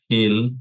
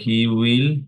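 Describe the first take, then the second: First: Said as one contracted syllable, will reduced. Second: Said as two full words, will fully pronounced. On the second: "so he উইল"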